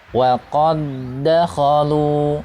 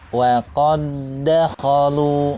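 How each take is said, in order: Both takes have the same delivery.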